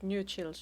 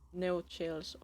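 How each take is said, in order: First: The first syllable sounds like 'new'. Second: The first syllable sounds like 'no'. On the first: The speaker calls it wrong. "Should I pronounce that new chills" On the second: The speaker calls it right. "Second one is better. Was the second one no chills?"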